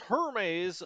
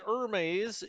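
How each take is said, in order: First: The name is said with an English pronunciation. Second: The name is said with a French pronunciation. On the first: The speaker calls it right. "It's a British ship ... It's Hermes" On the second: The speaker calls it wrong. "We don't give it the French pronunciation. ... we're not going to say Hermes"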